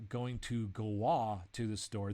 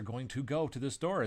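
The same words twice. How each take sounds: First: Slow demo with "go" bent into "go-wah"; altered GO. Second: Said in the usual way. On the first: Shown as a demonstration. English speaker showing a wrong verb change, "go" said as "go-wah". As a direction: stretch "go" into a made-up form, "go-wah". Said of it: "The word go doesn't change".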